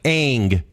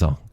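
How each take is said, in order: First: The vowel sounds like the vowel in cat. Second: The vowel sounds like the vowel in long. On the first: This is the show's pronunciation of the name. The speaker calls it wrong. "If you went to China and you were like" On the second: This is the pronunciation people in China would use. The speaker calls it right. "they'd be like, it's Ong"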